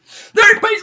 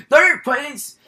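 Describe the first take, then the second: First: Louder, higher repeat. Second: Said in the usual way. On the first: Shown as a demonstration.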